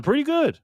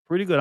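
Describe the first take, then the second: First: A squeaky put-on voice for the chatter; high voiced chat reply. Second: Said in the usual way. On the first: Host reads a viewer's reply in a high squeaky voice. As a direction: read it up high, sing-song.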